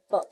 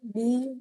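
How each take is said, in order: First: A short bare ब, the sound and not the letter name बी. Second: Said in the usual way. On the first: Shown as a demonstration. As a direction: show the class the ब sound. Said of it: "the sound is ब". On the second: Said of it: "जैसे बी बोलते हैं".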